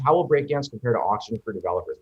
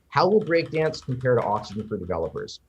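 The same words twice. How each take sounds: First: It is read at a fast pace. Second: It is read at a slower pace.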